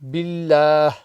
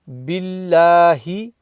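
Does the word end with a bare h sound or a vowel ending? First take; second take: bare h; vowel ending. First: The word ends with a soft h sound. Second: The word ends with an h and i vowel. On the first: The reader stops at this word. The speaker calls it right. "it becomes billah" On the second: The reader continues without stopping. The speaker calls it wrong. "instead of billahi"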